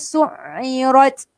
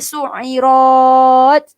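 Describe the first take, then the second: First: The final syllable is kept short. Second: The final syllable is drawn out long. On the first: The speaker calls it right. "dia tak ada harakat di sini. Terus su'irat" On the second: The speaker calls it wrong. "Jangan pula pergi baca su'irat. Ha, tak boleh. Salah"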